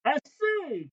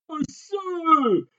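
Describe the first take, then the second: First: High furious cry. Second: High, loud furious shout. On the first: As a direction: yelp it out in fury. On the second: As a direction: shout it in rage. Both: A narrator's reading. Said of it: "criait le capitaine furieux".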